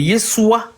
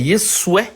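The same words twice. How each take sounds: First: The name ends with an A vowel sound. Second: The name ends with an E vowel sound. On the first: "pour ceux qui vont mettre le A à la fin" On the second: "pour ceux qui vont mettre le E à la fin"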